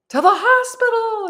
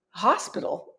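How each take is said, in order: First: Imitated high, loud cry; excited mock shout, pitched way up. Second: Retold puzzled query, at normal volume; understated questioning repeat; puzzled echo. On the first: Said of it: "shouting in Arabic some more, all excited". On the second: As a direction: echo it back, unconvinced. Retells own baffled reply to shouters.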